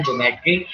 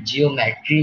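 First: ज्योमेट्री with ज्यो as one gliding syllable; ज्योमेट्री, three quick syllables ज्यो-मे-ट्री; correct pronunciation. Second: जियोमेट्री said as जि-यो-मेट्री with separate syllables; जियोमेट्री with a full जि and यो; wrong spelling-style reading. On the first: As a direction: say ज्योमेट्री the right way, ज्यो merged. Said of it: "इसको पढ़ते हैं ज्योमेट्री". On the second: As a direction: spell it out as जियोमेट्री, as if read letter by letter. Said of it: "इसको जियोमेट्री नहीं पढ़ते हैं". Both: Shown as a demonstration.

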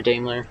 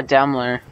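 First: Daimler with a long a, "DAME-ler"; alternative pronunciation. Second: Daimler with a short flat a, "DAM-ler"; first pronunciation. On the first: Player correcting the vehicle's name, Daimler as DAME-ler. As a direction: say Daimler with its first syllable like "dame". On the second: Player naming the new vehicle to the squad, Daimler as DAM-ler. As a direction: say Daimler so it rhymes with "rambler". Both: Real, not acted. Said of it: "or Daimler".

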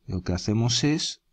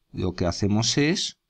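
No difference in how they are said.

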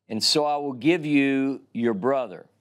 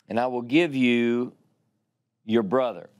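First: Said in the usual way. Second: Deliberate stress on "give". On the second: Shown as a demonstration. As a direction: land hard on "give" to show the hidden meaning. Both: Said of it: "This, my friends, is what he meant".

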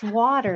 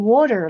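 First: Said in the usual way. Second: "water" said as "worter"; "water" as WOR-ter, imitating the coworker; New York "water". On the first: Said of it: "she's not, she's saying water". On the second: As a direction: put an R in the first syllable of "water". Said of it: "like W O R T E R".

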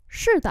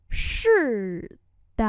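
First: Said in the usual way. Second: Drawn-out syllables with a gap between; slow model pronunciation. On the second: Shown as a demonstration. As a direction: say it slowly for learners. Teacher repeats phrase slowly.

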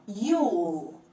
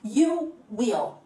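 First: "you'll" as one lengthened, falling syllable; contracted form. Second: "You will" as two separate words; full form. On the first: Teacher showing how you will contracts, "you'll" in one drawn syllable. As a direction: fold will into a final dark l in "you'll". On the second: Teacher showing the uncontracted form, "You will" in two clear words. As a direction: keep "will" whole after "You". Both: Shown as a demonstration. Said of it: "como que a gente contrai".

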